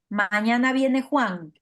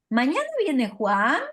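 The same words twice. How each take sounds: First: The voice falls at the end. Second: The voice rises at the end. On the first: It is a statement. "con una entonación descendente" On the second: It is a question. "si es pregunta"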